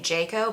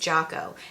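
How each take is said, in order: First: The first syllable sounds like 'jay'. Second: The first syllable sounds like 'jock'. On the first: The speaker calls it wrong. "I'm pretty sure I was pronouncing it Jayco" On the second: The speaker calls it right. "but it's Jocko, as in Rocco"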